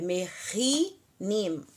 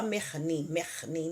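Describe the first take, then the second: First: "merinim" lento, com as quatro... três sílabas claras; correct full syllables. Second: "mernim" engolindo o I do meio, mais baixo; wrong dropped i. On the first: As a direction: pronuncie "merinim" devagar, com os dois Is. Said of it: "do jeito que a gente está vendo aqui". (forma correta "merinim", bem lenta) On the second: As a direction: diga "mernim" rápido sem o segundo I. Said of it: "não". ("mernim" errado, suave, sem o I) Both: Shown as a demonstration.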